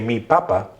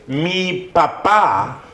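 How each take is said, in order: First: The stress falls on the first syllable. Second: The stress falls on the last syllable. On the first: It refers to a potato. "take off the punctuation and change the enunciation" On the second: It refers to one's father. "with a little thing"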